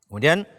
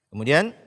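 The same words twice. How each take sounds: No difference in how they are said.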